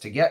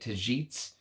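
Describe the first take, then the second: First: The g is a hard g sound. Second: The g sounds like a j. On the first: The speaker calls it wrong. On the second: The speaker calls it right.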